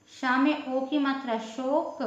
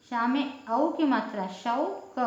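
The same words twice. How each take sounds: First: शोक with a short closed o. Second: शौक with a slow, open au. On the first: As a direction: say शोक with the small o. (छोटे ओ वाला शोक) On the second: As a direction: draw out the au in शौक. (धीरे, खुले औ वाला शौक) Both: Shown as a demonstration.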